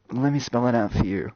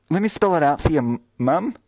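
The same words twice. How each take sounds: First: Said in the usual way. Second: Higher and louder, spelling it out; exasperated emphasis. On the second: Shown as a demonstration. Streamer spelling out Moss to a viewer, exasperated and louder.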